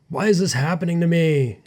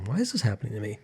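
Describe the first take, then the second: First: The voice sounds harsh and judgmental. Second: The voice sounds gentle and curious. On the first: The speaker is blaming themself. The speaker calls it wrong. "the judgment" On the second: The speaker is kindly wondering about themself. The speaker calls it right. "be curious"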